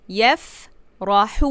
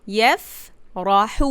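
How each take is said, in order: Both takes have the same delivery.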